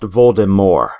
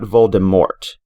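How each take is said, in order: First: The final T is left silent. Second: The final T is clearly sounded. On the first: The speaker calls it right. "his name is pronounced Voldemort" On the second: The speaker calls it wrong. "not Voldemort"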